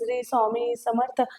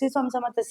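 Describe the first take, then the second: First: The phrase is said slowly and deliberately. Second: The phrase is said quickly and hurriedly. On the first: The person is saying it wholeheartedly. The speaker calls it right. "सेवा ही तुम्ही slow करा" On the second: The person is rushing to finish. The speaker calls it wrong. "एवढे fast बोलता"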